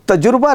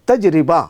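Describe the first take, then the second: First: The middle syllable sounds like jur. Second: The middle sounds like ji-ri with an i. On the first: The speaker calls it wrong. "वो तजुर्बा नहीं है" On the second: The speaker calls it right. "लफ्ज़ है तजरिबा"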